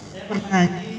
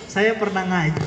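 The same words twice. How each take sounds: The two takes are said the same way.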